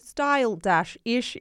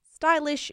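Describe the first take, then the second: First: The name is said slowly and drawn out. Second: The name is said quickly.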